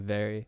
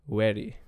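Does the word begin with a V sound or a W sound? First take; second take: V; W. First: The word begins with a V sound. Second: The word begins with a W sound. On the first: The speaker calls it right. "Instead of saying "very."" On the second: The speaker calls it wrong. "when I had my Indian accent, I would pronounce V as like a W"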